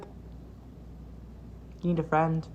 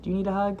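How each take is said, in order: First: Slow, breathy whisper. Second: Said in the usual way. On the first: Pretend. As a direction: whisper it slowly and softly. Teasing a sad fan.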